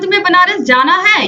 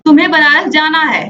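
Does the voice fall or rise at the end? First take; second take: rises; falls. First: The voice rises at the end like a question. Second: The voice falls at the end like a statement. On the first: The speaker does not know and is asking. "दूसरा वाक्य प्रश्न सूचक है" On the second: The speaker already knows and is telling the listener. "पहला वाक्य आदेश सूचक है"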